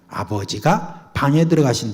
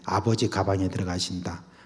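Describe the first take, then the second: First: The break comes after 'abeojiga', before 'bang-e'. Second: The break comes after 'abeoji', before 'gabang-e'.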